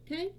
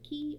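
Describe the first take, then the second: First: The word starts with k and rhymes with eye. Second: The word starts with k and sounds like key. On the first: "If you say it as Kai, that's fine too" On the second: "or Ki"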